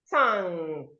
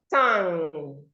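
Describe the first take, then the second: The two takes are said the same way.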